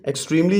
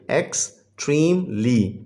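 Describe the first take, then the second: First: Said in the usual way. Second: "एक्सट्रीमली" slowly in three pieces, ex, treem, lee; syllable by syllable. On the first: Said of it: "जो है ये three syllable word है". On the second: Shown as a demonstration. Teacher showing pupils three syllables, slowly divided. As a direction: break "एक्सट्रीमली" into three separate beats with gaps. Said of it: "ये three syllable word है".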